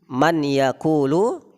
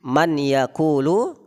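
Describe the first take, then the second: First: The n is pronounced separately before the y. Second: The n is pronounced separately before the y.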